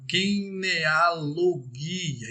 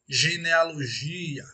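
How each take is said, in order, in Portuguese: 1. Começa com um som forte de g. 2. Começa com um som suave e arrastado de zh. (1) "em grego, seria genealogia" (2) "aquele som arrastado como se lêssemos"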